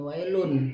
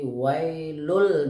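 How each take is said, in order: First: The word ends with an n sound. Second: The word ends with an l sound. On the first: The speaker calls it wrong. "bukan wailun" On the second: The speaker calls it right. "Jadi wailul dibacanya"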